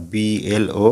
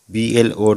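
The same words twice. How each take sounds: The two takes are said the same way.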